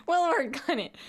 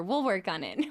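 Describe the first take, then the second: First: Higher-pitched, just after a laugh; amused repeat. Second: Said in the usual way. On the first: Real, not acted. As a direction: say it lifted with amusement.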